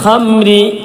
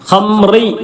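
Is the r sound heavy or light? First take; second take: light; heavy. First: The r is pronounced light and thin. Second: The r is pronounced heavy and thick. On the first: The speaker calls it right. "റ ഇനി എപ്പോൾ കസ്റ വന്നാലും തർക്കീക്ക് ചെയ്യണം" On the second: The speaker calls it wrong. "ഖംറി എന്ന് പറയരുത്"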